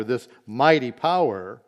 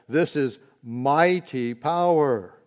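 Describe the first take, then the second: First: Said in the usual way. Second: This is mighty power, slow with weight on This; slow stress on This in This is mighty power; emphatic, slow. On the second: Shown as a demonstration. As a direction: lean hard on This, draw out mighty power. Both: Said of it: "he's noting this".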